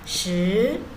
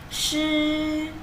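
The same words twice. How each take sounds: First: The pitch rises upward. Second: The pitch stays high and level. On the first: It means ten. "nada dua ya, naik ke atas" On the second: It means wet. "nada satu cara bacanya shi"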